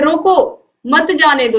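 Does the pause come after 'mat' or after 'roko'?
after roko. There is a pause right after 'roko'. Stop the person; do not let them go.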